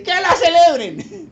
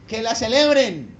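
First: High, loud and slow; God's verdict. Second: Said in the usual way. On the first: Retold or imitated. Preacher voicing the Lord's answer, high, loud and slow. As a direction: proclaim it, drawn out and lifted. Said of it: "el Señor le dice". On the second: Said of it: "el Señor dice".

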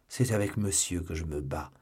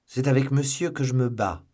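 First: A lower, smoother Aramis voice; Aramis, lighter voice. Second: Louder, a touch higher noble duellist; Athos, firm. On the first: Aramis arriving, claiming the same duel, lightly voiced. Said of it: "dit Aramis". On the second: Athos presenting his opponent to Porthos, firm and proud. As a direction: state it calmly as a gentleman. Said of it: "dit Athos". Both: A narrator's reading.

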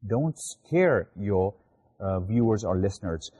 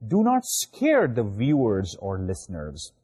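First: Slow it right down so the rule sinks in; slow restated rule. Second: Said in the usual way. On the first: Shown as a demonstration. Teacher repeats the rule to students, slowly. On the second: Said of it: "Don't scare your, viewers or listeners".

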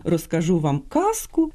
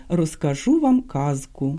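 First: Казку said as kasku with a voiceless s; казку with s, as heard on the radio; wrong devoiced kasku. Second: Казку with a clear voiced z, said slowly; slow, careful казку with a clear z; correct voiced kazku. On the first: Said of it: "це абсолютно неправильно". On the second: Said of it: "а слід казати". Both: Shown as a demonstration.

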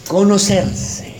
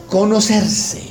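First: "conocerse" said again slowly, each syllable weighted; slow emphatic repeat. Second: Said in the usual way. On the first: Shown as a demonstration. Preacher repeating the key word to his congregation, slow and stressed. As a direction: drive "conocerse" home, slow and deliberate.

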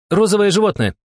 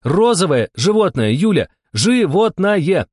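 First: High-pitched urgent yell; shouted clue. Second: High, loud, drawn out on the last word; exasperated insistence. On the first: Steklova shouting a clue to her partner, urgent. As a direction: call it out loud and high. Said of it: "крикнула Стеклова". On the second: Steklova to Yulia who misses the clue, exasperated. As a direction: hammer it home, stretching the final word slowly. Repeats clue to clueless partner. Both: A narrator's reading.

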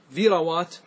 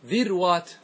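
First: ذروات as dhi-ra-wat; three syllables in ذروات, "ra" in the middle; fatha on middle letter. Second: ذروات as dhir-wat; no vowel after the ر in ذروات; silent middle letter. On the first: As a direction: put an "a" after the ر in ذروات. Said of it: "الفتح، فتقول". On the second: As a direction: close the first syllable on ر in ذروات. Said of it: "التسكين أو". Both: Shown as a demonstration.

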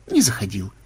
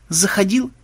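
First: Low, falling denial; denying side. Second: High, rising challenge; accusing side. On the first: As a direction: drop it low as a dull reply. (отрицание, пониже) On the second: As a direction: pitch it up like an accusation. (с вызовом, повыше) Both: Acted. Acts out back-and-forth dispute.

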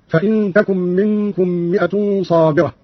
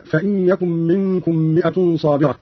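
First: Slow "تكن" with t, as takun; feminine ta. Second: Said in the usual way. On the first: Shown as a demonstration. Teacher showing Qalun's feminine reading, "تكن" said takun. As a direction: open "تكن" on a t, not a y. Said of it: "قرأ قالون بالتاء على التأنيث هكذا". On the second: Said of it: "قرأ قالون بالتاء على التأنيث".

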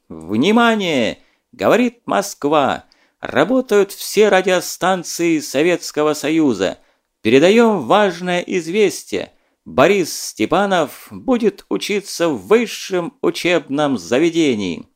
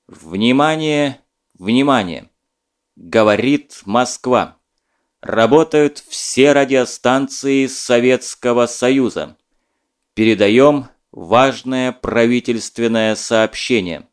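First: Slow, solemn radio announcer, mock grand; booming solemn state announcer. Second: Slow, loud, stern and anxious radio announcement; stern grave announcer. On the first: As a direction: playfully imitate a Soviet radio announcer. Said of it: "подражая диктору". (шутливо, торжественно, как диктор Левитан) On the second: Acted. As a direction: announce grave news, severe and alarmed. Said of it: "звучал он как-то необычно строго, сурово и тревожно". (строго, сурово и тревожно, как диктор)

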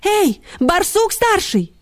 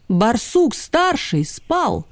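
First: High, slow hailing; high-pitched drawn-out summons; barked call. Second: Said in the usual way. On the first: A narrator's reading. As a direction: call out into the burrow. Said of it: "гавкнула Ксюня в тёмное отверстие".

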